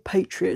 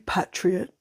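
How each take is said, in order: First: The word is said in an American way. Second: The word is said in a British way. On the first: "a very American way of saying it" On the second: "should it be Patriot?"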